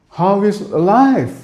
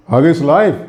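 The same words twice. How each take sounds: First: Slow, high "how is life"; musical greeting. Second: Said in the usual way. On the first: Shown as a demonstration. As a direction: stretch "life" high, then let it fall. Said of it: "the music". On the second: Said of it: "Very rigid English".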